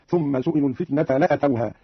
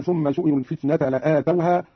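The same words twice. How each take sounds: First: "لأتوها" as la-atawha, short a; no stretch after the hamza in "لأتوها"; shortened hamza. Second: Said in the usual way. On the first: Shown as a demonstration. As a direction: keep "لأتوها" short, la'atawha. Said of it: "قرأ قالون بقصر الهمزة هكذا". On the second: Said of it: "بقصر الهمزة".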